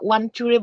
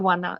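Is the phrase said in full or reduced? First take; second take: full; reduced. First: The phrase is said in full. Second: The phrase is reduced to one short word.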